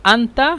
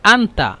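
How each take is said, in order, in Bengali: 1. প্রথম স্বরধ্বনিটি খোলা a-ধ্বনি। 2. প্রথম স্বরধ্বনিটি খোলা a-ধ্বনি।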